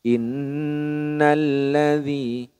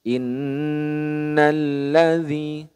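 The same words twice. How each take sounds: Both takes have the same delivery.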